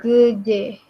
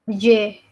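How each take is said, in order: First: "geje" with a lengthened first vowel; pronunciation demo. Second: "geje" short, first vowel nearly dropped; pronunciation demo. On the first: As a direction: separate the two syllables of "geje". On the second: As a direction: say "geje" almost as "je". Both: Shown as a demonstration. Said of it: "Bacanya jadi geje".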